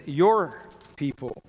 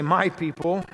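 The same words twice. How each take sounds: First: "Your" stressed firm and falling. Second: "My" stressed with a rise. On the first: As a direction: punch the word "Your", then drop. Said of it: "He says". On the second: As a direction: lean on "My", lift it. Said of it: "Moses doesn't say". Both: Shown as a demonstration.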